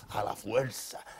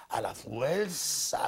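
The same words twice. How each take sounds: First: Said in the usual way. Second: "a la fuerza" stretched very slowly, every syllable leaned on; drawn-out emphasis. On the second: Shown as a demonstration. Pastor warning the congregation against forcing scripture, slow heavy stress. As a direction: drag out "fuerza" to show the forcing.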